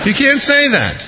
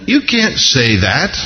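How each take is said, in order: First: Very high-pitched protest, falling at the end; incredulous objection. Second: Slow objection with a questioning rise; gently object, lifting the end; mild mock objection. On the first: Acted. Preacher protesting Peter's answer to the Lord, high-pitched incredulity. Repeats objection, much higher. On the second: Preacher objecting to Peter's answer, mild mock objection.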